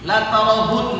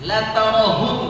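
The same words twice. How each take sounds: Both takes have the same delivery.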